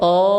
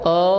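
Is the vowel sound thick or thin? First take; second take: thick; thick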